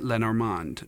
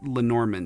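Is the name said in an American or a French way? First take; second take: French; American. First: The name is said with a French pronunciation. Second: The name is said with an American pronunciation.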